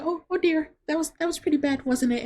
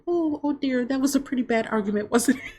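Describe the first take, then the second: First: High, prim busybody voice, tutting; nosy old lady. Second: High, prim busybody voice tutting sweetly; nosy old lady. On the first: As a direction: cluck like a prying old lady. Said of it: "This lady's like". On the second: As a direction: play a nosy lady clucking over a fight. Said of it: "this lady's like". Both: Retold or imitated. A nosy diner lady comments on the couple's fight, high and prim.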